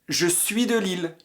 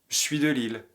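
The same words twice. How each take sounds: First: The pronoun is said as a full syllable. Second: The pronoun is contracted into the verb. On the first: This is the standard way to say it. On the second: This is the casual way to say it.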